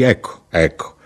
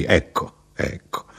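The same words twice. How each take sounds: First: Said in the usual way. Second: Second ecco dies into a whisper; fading to a whisper. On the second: Acted. The narrator answers the chatty traveller, fading to a whisper. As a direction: let the words drain away to breath.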